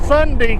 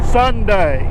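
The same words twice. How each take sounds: First: The word is said in a relaxed, casual way. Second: The word is said slowly and carefully. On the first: "casual conversation, it comes out Sunday" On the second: "I have to really concentrate to say Sunday"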